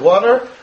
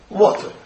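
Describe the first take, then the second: First: The word is said in an American accent. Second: The word is said in a British accent. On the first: "I'm an American, I say water" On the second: "The British say water, right? How do they say it?"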